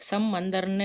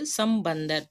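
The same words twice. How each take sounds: First: சம்மந்தர்னு with doubled m, no b; wrong form. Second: சம்பந்தர் with a clear b after m; correct form. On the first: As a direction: hum through the mm of சம்மந்தர்னு. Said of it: "எழுதக்கூடாது". (பகரம் இல்லாமல் சம்மந்தர்னு) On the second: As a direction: say "sam-ban-dhar" for சம்பந்தர். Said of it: "பா வரும்". (பகர ஒலியுடன் சம்பந்தர்) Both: Shown as a demonstration.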